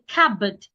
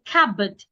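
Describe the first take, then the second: First: The P sound is silent. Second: The P sound is silent.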